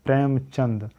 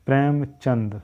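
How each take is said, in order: Both takes have the same delivery.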